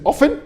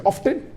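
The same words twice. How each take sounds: First: OFTEN with the T left out; silent T. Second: OFTEN with the T sounded; pronounced T. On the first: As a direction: say often as "offen", no T sound. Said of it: "Some say T is silent". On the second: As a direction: say often as "off-ten", T clearly heard. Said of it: "T is not silent". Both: Shown as a demonstration.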